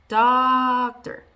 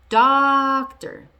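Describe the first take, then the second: No difference in how they are said.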